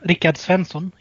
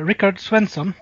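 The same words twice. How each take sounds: First: The name is said with Swedish pronunciation. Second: The name is said with English pronunciation.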